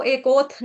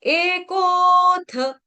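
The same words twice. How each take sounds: First: "एकोथ" spoken, ending on a bare थ with no vowel; cut-off थ. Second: "एकोथ" sung high, loud and very slow, थ with its vowel; chanted, hold "एकोथ" long and finish on a whole थ; chanted, full थ. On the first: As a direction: say "एकोथ" wrongly, unsung, stopping on थ. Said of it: "इसको एकोथ नहीं पढ़ेंगे". ("एकोथ" बोलकर, आधा थ, गलत उच्चारण) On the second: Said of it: "थ पूरा". (chanted, "एकोथ" ऊँचे लंबे सुर में, पूरा थ) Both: Shown as a demonstration.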